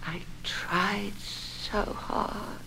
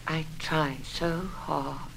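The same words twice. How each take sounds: First: Barely above a breath, very slow; drawn out and fading away; even slower, fading. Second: Slow, quiet, aching; slow sad plea. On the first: Wife to her husband, very slow and fading. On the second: Wife to her husband, quiet and worn out. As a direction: let the words sink heavy. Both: Acted.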